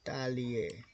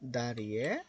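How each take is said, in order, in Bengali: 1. এটি ইংরেজি উচ্চারণে বলা হয়েছে। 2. এটি খাঁটি বাঙালি উচ্চারণে বলা হয়েছে। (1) "তারা ইংরেজের মতো করে বলতো" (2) "সেগুলোর বাংলা শব্দ হচ্ছে এরকম"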